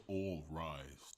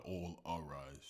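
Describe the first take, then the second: First: "all rise" said slowly, two plain words; slow, corrective "all rise" with no extra syllable; "all rise", said the right way. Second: "all arise" with the added "a" sound; quoting the mistaken "all arise" slowly; "all arise", mocked as wrong. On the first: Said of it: "It's just all rise". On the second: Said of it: "Not all arise". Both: Shown as a demonstration.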